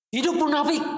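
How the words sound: It is shouted like an exclamatory cheer. Long live the hypocrites.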